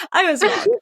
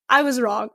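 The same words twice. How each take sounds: First: Laughing at herself, higher. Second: Said in the usual way. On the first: Real, not acted. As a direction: giggle through the admission.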